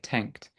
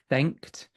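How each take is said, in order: First: The word begins with a t sound. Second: The word begins with a th sound. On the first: The speaker calls it wrong. "that th sound you pronounce slightly more as a t, like tanked" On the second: The speaker calls it right.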